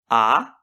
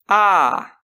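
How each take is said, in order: First: The vowel is held only briefly. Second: The vowel is held about twice as long. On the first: "o primeiro corresponde a uma vogal breve" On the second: "o segundo corresponde a uma vogal longa"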